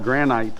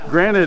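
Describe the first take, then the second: First: The second-syllable vowel is fully pronounced. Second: The second-syllable vowel is reduced and weak. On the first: This is how people here say it. "Here they call it granite. Make sure to pronounce the I" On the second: This is how people in the States say it. "as we say in the States"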